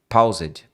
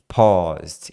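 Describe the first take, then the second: First: The vowel sounds like 'ow', as in 'pau'. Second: The vowel sounds like 'aw', as in 'pó'. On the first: The speaker calls it wrong. "Muita gente fala paused" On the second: The speaker calls it right. "é o som de pó, não é som de paused"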